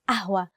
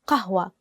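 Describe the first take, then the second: First: The word begins with a glottal stop. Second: The word begins with a deep q sound. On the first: This is the easier everyday form. "we use the letter a, a, ahwa" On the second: This is the standard Arabic form. "the actual standard Arabic word is qahwa. ق qahwa with the letter qaf"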